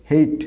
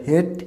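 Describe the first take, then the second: First: Hate as "heyt", with a glide; corrected pronunciation. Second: Hate as a short "het"; wrong pronunciation. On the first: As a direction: make hate rhyme with "late". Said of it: "উচ্চারণটা হবে". (সঠিক hate, "হেইট") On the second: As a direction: make hate rhyme with "get". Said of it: "not the hate". (ভুল hate, ছোট "হেট") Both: Shown as a demonstration.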